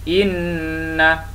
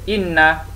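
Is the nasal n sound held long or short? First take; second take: long; short. First: The nasal n is held for two counts. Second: The nasal n is held for one count. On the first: The speaker calls it right. "Didengung atau gunnah sekadar dua harakat" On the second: The speaker calls it wrong. "Kalau satu, ... tidak betul atau tidak tepat"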